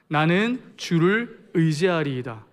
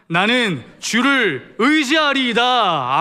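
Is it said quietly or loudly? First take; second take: quietly; loudly. First: It is said quietly and meekly. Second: It is said loudly and resolutely.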